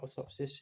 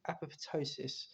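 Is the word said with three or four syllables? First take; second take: three; four. First: The word is said with three syllables. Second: The word is said with four syllables. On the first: The speaker calls it wrong. "Not atopsis" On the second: The speaker calls it right. "it's apoptosis"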